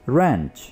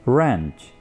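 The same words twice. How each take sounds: The two takes are said the same way.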